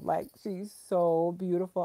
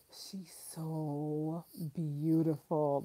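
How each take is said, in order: First: Said in the usual way. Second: Tender gush. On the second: Real, not acted. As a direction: breathe it out adoringly, softer. Melting over baby photos.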